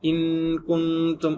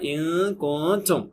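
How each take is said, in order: First: The n becomes a long, heavy nasal hum. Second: The n is hidden with light nasalization. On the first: The speaker calls it wrong. "குன்னாவை செஞ்சு ஏமாத்திடக்கூடாது... ரெண்டாவது உள்ளது ட்ரை பண்ணி அதனால நம்ம ஃபெயிலியர் ஆயிட்டோம்" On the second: The speaker calls it right. "Third இருக்கக்கூடியது பெர்ஃபெக்ட் இஃபா"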